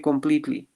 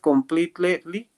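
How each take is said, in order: First: One vowel in the word is dropped. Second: Every vowel in the word is fully pronounced. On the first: The speaker calls it right. "one of the vowels disappear in pronunciation" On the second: The speaker calls it wrong. "Instead of completely"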